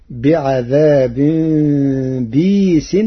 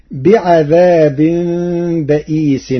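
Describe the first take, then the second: First: بيس as bīs, kasra on ba, no hamza; بيس with a long ī and no glottal stop; Warsh reading. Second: بئيس with a glottal stop, baʔīs; بئيس said with hamza after the ba; Hafs reading. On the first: Teacher reciting Warsh's variant to the class. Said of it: "فتصير". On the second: Teacher quoting the standard reading, recited. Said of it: "قرأ ورش كلمة بئيس". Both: Shown as a demonstration.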